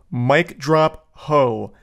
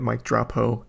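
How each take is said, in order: First: Slow, drawn-out mock mic drop; mock dramatic. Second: Softer, flat disbelieving repeat; deadpan disbelief. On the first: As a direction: savor each word like a smug exit. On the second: Real, not acted. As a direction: say it in quiet disbelief. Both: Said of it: "This guy just typed out".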